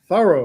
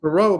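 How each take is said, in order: First: The name sounds like the word 'thorough'. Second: The name does not sound like 'thorough'. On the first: This is the newly promoted way to say it. The speaker calls it right. "but it's now Thorough" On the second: This is the familiar way people have always said it. The speaker calls it wrong. "pronounced Thoreau my whole life"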